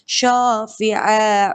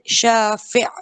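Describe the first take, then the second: First: The word ends on a vowel, running on. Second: The word stops short on its final consonant. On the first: The reciter continues without a pause. "Then I'm gonna continue it" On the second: The reciter pauses here. "I was out of breath, so I did i'ada, I said shafi'. Stop it"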